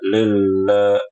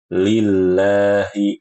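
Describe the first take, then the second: First: The mouth stays nearly closed, sounding unclear. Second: The mouth opens wide, sounding clear. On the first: The speaker calls it wrong. "ini kurang jelas" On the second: The speaker calls it right. "Jadi dia harus dibuka. Lillahi, seperti itu"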